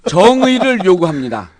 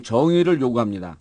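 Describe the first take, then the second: First: 정의를 read with a strong falling emphasis; moving reading. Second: 정의를 said quietly, lower, falling; softer repeat. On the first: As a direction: read 정의를 요구합니다 firmly and touching. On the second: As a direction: murmur 정의를 요구합니다 softly. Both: Shown as a demonstration. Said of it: "마지막에 감동".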